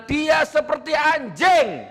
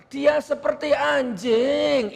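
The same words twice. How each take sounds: First: High, drawn-out forceful declaration; keras. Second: Mock a limp, high, slow way of saying it; mock effeminate voice. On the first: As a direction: hurl it out hard and high. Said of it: "Lu kok keras". (suara tinggi dan keras) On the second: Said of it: "Itu L G B T namanya". (meniru gaya kemayu, dipanjangkan) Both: Shown as a demonstration.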